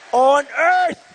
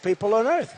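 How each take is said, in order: First: Louder emphatic shout of the phrase On earth!; On earth! shouted for emphasis. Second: Said in the usual way. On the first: Real, not acted. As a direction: punch On earth! hard and loud. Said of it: "repeated, building". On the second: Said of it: "repeated for emphasis".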